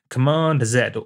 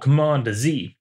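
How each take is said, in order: First: The letter Z has a non-American pronunciation. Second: The letter Z has the American pronunciation.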